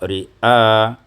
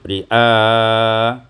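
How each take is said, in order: First: The final vowel is held briefly. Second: The final vowel is held moderately long. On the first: "dengan bacaan qasar" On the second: "summa tawassut"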